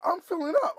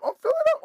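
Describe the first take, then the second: First: High, loud glee; gleeful and much higher, building up; excited. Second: Very high, loud glee at its peak; squealing excitement. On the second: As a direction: squeal it out, the top of the build. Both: Retold or imitated. Thrilled by cheap gas.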